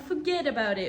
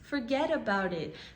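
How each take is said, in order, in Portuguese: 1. É dito com sotaque nova-iorquino. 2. É dito com um sotaque simples e neutro.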